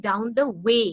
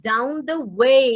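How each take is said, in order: First: "down the way" with a flat "way"; ভুল উচ্চারণে "way"; wrong plain way. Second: Sung, "down the way" stretched slowly with a clear diphthong in way; sung, draw out "way" as wei; sung, ধীরে, স্পষ্ট "way"; English sung way. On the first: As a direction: say "way" flat, without the glide. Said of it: "I am not saying". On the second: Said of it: "দেখবে, খেয়াল করবে". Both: Shown as a demonstration.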